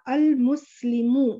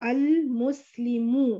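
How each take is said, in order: Both takes have the same delivery.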